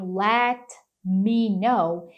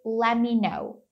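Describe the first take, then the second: First: The T in 'let' is clearly pronounced. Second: The T is dropped, sounding like 'lemme'. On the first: "ao invés deles falarem" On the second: "ignora completamente o T"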